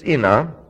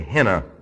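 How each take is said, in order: First: The word begins with a vowel, no h. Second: The word begins with an h sound. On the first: The speaker calls it right. "It's ina" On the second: The speaker calls it wrong. "You'll hear those that pronounce it rather strange. They say hina"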